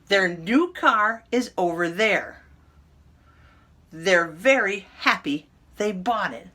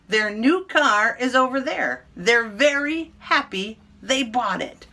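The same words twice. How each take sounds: First: The sentences are read at a slower pace. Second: The sentences are read at a quick pace.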